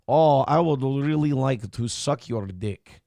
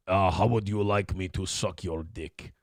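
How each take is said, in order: First: Slow, put-on Russian woman's accent; sultry Russian woman accent. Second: Lower, softer mock Russian man's accent. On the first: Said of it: "I can't stand that fucking voice". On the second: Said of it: "That's a guy".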